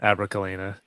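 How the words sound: The voice falls at the end like a statement.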